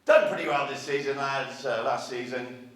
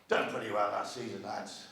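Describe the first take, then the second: First: Sir Alex Ferguson. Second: Quiet, low pretend team talk, no accent; Sir Alex Ferguson. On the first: Pretend. Manager to his players, mock team talk, projected. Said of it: "I don't do his accent". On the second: Manager to his players, understated mock team talk. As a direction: softly play a manager addressing his players. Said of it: "Sir Alex said to his players".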